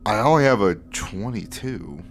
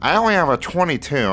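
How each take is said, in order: First: It is said in the speaker's normal voice. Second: It is said in a put-on voice for Fitch.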